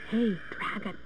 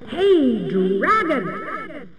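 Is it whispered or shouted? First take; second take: whispered; shouted. First: It is whispered very softly. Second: It is shouted very loudly.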